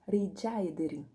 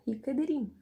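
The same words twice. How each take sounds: First: The c in rica sounds like j. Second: The c in rica is not a j sound. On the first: The speaker calls it right. "o C tinha o som de J, então é Rica Ederim" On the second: The speaker calls it wrong. "Eu falava Rica Ederim"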